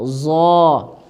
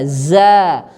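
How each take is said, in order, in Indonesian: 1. Suku kata ini berat dengan vokal yang dibulatkan. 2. Suku kata ini ringan dengan vokal a yang terbuka. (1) "jangan zo, zo, salah ya" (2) "ini dia huruf tipis bukan huruf tebal, jadi jangan ditebalkan suaranya"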